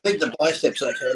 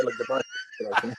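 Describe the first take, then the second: First: Said in the usual way. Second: Squeaky mock repeat of "the biceps okay"; mock high voice. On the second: Shown as a demonstration. Brushing off the injury to the hosts in a squeaky voice. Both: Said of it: "repeats the line in another voice".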